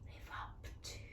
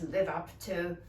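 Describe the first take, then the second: First: It is whispered softly. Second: It is said in an angry tone.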